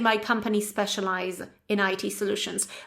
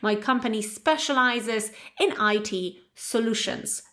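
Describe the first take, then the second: First: The final S sound of the verb is dropped. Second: The final S sound of the verb is clearly heard. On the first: The speaker calls it wrong. "people forget to add to add or even to pronounce this S ending" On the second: The speaker calls it right. "you need to just make it audible"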